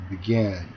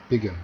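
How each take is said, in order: First: "began" stressed on GAN; quick "be", strong GAN in "began"; stress on second syllable. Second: "begin" wrongly stressed on BE; stress on first syllable. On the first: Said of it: "동사는 뒤 음절에 강세가". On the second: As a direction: hit BE and swallow the end of "begin". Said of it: "억양을 바꿔서 하면". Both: Shown as a demonstration.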